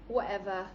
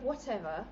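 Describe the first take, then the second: First: The t sound in the middle is dropped. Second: The t sound in the middle is pronounced. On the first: This is the Mancunian slang form. "Totally skip the T" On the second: This is the standard English form. "instead of whatever"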